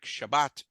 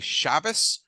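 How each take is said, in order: First: It is said with Sephardic Hebrew pronunciation. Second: It is said with Ashkenazi Hebrew pronunciation. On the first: "like Shabbat" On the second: "like we say Shabbos"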